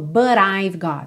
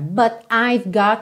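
First: The words run together with no pause. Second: There is a short pause after 'but'. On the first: "Ela não falou but I've got" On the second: "Ela dá uma pausinha"

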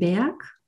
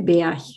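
First: It is said in standard German. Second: It is said in Sauerland dialect.

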